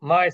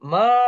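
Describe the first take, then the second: First: The vowel is short and plain. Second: The vowel is drawn out long and eager. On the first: A routine goodbye with no special feeling. "মাকে যাওয়ার সময় বলে যান কিভাবে?" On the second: Excited to share good news. "এইভাবে বলে। ... এই মাটাই হলো মাত"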